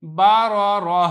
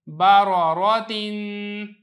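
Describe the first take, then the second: First: Loud, slow "बा रो रो" closing on breathed h; waqf ending in ha. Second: Loud, slow "बा रो रो तीन", held n; tanween ending. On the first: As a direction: stop "बा रो रो" on h, no "तीन". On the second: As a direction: chant "बा रो रो तीन" with a long nasal ending. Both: Shown as a demonstration. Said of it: "आगे वक़फ़".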